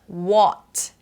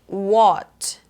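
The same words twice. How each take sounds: Both takes have the same delivery.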